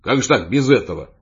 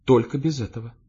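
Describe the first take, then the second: First: Louder, baffled protest; taken aback. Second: Mild, restrained refusal; fending off. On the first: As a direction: protest in bewilderment. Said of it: "Я даже опешил". (растерянное возмущение) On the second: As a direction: hold someone off gently. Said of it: "выставила вперёд руки и сказала". (сдержанный отказ) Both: A narrator's reading.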